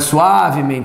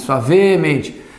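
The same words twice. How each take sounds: First: The stress falls on the syllable 'a'. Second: The stress falls on the syllable 'men'. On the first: The speaker calls it wrong. "Não é suavemente" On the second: The speaker calls it right. "Quando ela deriva, muda a sílaba tônica"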